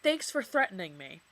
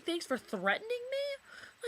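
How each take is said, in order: First: Said in the usual way. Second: High, slow, incredulous mock repeat; sarcastic mimicry of the boyfriend's text; mocking disbelief. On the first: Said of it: "he said". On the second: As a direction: throw his words back in scorn. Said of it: "he's sitting here saying".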